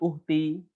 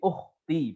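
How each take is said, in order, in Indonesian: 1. Huruf tengahnya h yang lembut dan berdesah. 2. Huruf tengahnya kh yang kasar dari tenggorokan. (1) "ya bukan uhti" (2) "tapi ukhti pakai kha"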